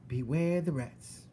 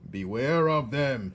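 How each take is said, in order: First: Slow, high parroting; Mig repeating. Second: Loud, slow warning shout. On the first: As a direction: echo the warning blankly. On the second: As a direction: warn her loudly. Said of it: "shouted Gregory". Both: Acted.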